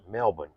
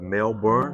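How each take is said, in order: First: It is said the Australian way. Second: It is said the American way. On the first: It names the city in Australia. "here, the Aussies call it Melbourne" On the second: It names the city in Florida. "in America, you know, we have Melbourne, Florida"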